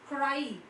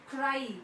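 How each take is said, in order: The two takes are said the same way.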